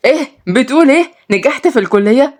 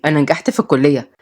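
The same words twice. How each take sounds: First: Higher-pitched, rising astonished question; feigned surprise. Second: Said in the usual way. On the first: Pretend. Mohamed faking a phone call, astonished question. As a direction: act amazed at the news on the phone.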